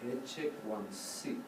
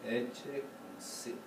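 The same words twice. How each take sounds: First: Soft, slow "ecce quam sit" with "ecce" as pickup into "sit"; "ecce quam sit" as an upbeat, low and measured; three-four-one phrasing. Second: Soft, slow "ecce quam sit" with weight on the first syllable of "ecce"; low, measured "ecce quam sit", leaning on "ecce"; downbeat on ECCE. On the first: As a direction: say "ecce quam sit" quietly, leading toward a downbeat on "sit". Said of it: "I hear a three four one". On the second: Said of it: "as opposed to". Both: Shown as a demonstration.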